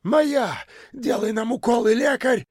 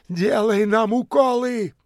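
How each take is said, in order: First: Very high, wild yell; yelling with all might. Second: High clamouring demand; high demanding shout. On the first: Kalancha screaming for shots, wild high yell. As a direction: howl it at the doctor. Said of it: "вдруг завопил, что есть мочи". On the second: Tramps pressing in, high demanding shout. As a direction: push forward and demand. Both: A narrator's reading.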